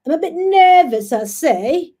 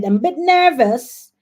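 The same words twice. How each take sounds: First: High, loud mock-British accent; bad British accent. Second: Said in the usual way. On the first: Host jokes to viewers about nerves, hammed-up British accent. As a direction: put on a badly faked British accent. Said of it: "my, my, my British accent is so horrible". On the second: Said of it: "my British accent is so horrible".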